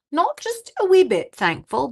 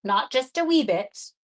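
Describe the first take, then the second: First: "wee" high and loud with a lift; stress on wee. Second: Said in the usual way. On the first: Shown as a demonstration. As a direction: punch "wee", rising. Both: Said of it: "repeating thankful for emphasis".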